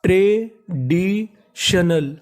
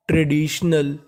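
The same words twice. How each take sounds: First: traditional drawn out slowly, syllable by syllable. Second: Said in the usual way. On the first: Shown as a demonstration. Teacher sounding out traditional slowly for students. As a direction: stretch traditional out for the class. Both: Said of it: "तो पूरी meaning".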